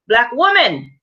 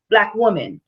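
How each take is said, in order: First: "black woman" pressed a bit harder the second time; emphatic repeat. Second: Said in the usual way. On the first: Shown as a demonstration. Repeating "black woman" to viewers, with a touch more weight.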